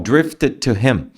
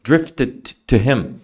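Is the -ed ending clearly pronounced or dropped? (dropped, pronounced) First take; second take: pronounced; pronounced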